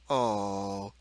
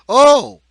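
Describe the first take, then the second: First: The oh sounds displeased. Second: The oh sounds surprised. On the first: "or displeasure" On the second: "or surprise"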